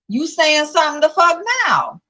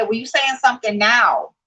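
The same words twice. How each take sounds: First: High-pitched, exasperated comeback; indignant retort. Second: Said in the usual way. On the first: Real, not acted. Vlogger calling out a commenter who claimed silence, indignant. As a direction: throw it back higher, in indignation.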